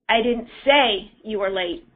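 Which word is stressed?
say. The stress is on "say".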